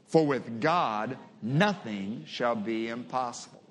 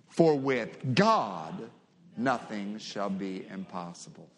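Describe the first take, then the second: First: The word nothing carries the strongest stress. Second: The word God carries the strongest stress. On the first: "Emphasize the word nothing" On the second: "emphasize the name God"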